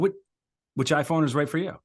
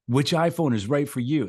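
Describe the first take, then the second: First: It sounds like a genuine question to one person. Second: It sounds like a polished announcer addressing everyone.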